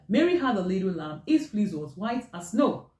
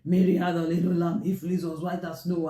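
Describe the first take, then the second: First: It is read with a lively, varied melody. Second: It is read in a flat, unvarying monotone. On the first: The speaker calls it right. "you're supposed to read that" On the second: The speaker calls it wrong. "never speak in a flat tone or read in a monotone"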